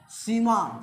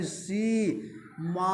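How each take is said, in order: First: Said in the usual way. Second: सी, मा in two very long held syllables; खींचकर उच्चारण. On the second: Shown as a demonstration. (सी और मा को बहुत लंबा खींचकर) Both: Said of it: "सीमा को उच्चारण करो".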